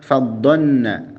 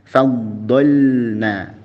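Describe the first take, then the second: First: The L sound is merged and not heard. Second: The L sound is clearly pronounced. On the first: The speaker calls it wrong. "lamnya enggak jelas" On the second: The speaker calls it right. "Jelaskan huruf lamnya"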